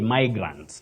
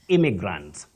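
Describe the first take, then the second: First: The first vowel sounds like 'eye'. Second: The first vowel sounds like 'ih'. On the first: The speaker calls it wrong. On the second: The speaker calls it right. "You say"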